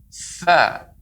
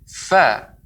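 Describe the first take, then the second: First: The f is made with plenty of air. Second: The f is made with plenty of air.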